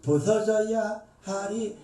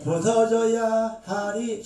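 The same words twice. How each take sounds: First: 부서져야 하리 said slowly and level; 부서져야 하리 drawn out, not pushed; slow repeat. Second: 부서져야 stretched slow and heavy; 부서져야 drawn out with weight; drawn-out emphasis. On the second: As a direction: lean hard on 부서져야, very slow. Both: Shown as a demonstration.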